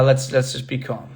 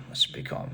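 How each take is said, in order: First: Said in the usual way. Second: Whispered calming repeat. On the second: Real, not acted. Vlogger calming himself after teasing, whispered. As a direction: whisper it to settle yourself.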